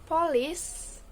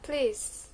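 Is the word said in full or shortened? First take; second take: full; shortened. First: Both syllables of the word are pronounced. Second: The first vowel is dropped, one syllable remains.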